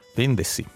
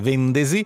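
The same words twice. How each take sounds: First: The s is voiceless, like a hiss. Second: The s is voiced, like a z. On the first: This is the standard way of saying it. The speaker calls it right. "anche se dovrebbe dirsi vendesi" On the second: This is the regional way of saying it. The speaker calls it wrong. "dalle nostre parti tende a essere sonora, quindi noi tendiamo a dire vendesi"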